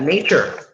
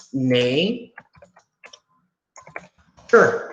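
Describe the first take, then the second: First: Said in the usual way. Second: "Nay", long pause, then "Sure"; syllable by syllable. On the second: Shown as a demonstration. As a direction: sound out nature as two isolated parts, "Nay" and "Sure". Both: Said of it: "Two syllables".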